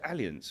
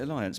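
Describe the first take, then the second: First: The name is said with a German pronunciation. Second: The name is said like the English word alliance. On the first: This is how it is said in Germany. "In Germany, is it Allianz, right?" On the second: This is how it is said in the UK. "In the U K, everyone calls it Alliance"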